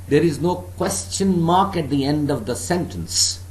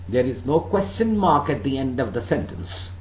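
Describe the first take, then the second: No difference in how they are said.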